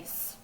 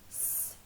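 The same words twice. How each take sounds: First: A short vowel sound follows the s. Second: The s is a pure hiss with no vowel. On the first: The speaker calls it wrong. "here we don't say s" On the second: The speaker calls it right. "make the real s sound"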